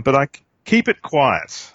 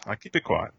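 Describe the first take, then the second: First: Said in the usual way. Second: Softer, hushed aside; quiet. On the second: Shown as a demonstration. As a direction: drop the voice like a secret. Joke about secret crush.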